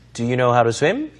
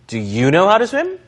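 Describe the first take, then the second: First: The word 'you' carries no special stress. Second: The word 'you' carries strong stress. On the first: The speaker calls it wrong. "이 아니라" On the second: The speaker calls it right. "다시 되물을 때는 강세를 상대방 주어에 주시는 거예요"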